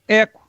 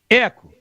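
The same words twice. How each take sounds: First: The word is heard once, dry, without echo. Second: The word repeats with an echo after it. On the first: "Agora eu vou falar sem eco" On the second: "Agora eu vou falar com eco"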